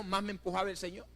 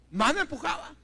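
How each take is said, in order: First: Said in the usual way. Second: "Más me empujaba" punched out high and loud; emphatic repetition. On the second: Real, not acted. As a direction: drive home "Más me empujaba" with raised pitch and force.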